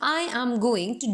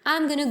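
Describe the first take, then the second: First: Each word is fully pronounced at a slower pace. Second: Said fast with going to reduced to gonna. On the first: "अगर मैं इसको Indian में बोलती" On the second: "अगर मैं इसे America में बोलूंगी"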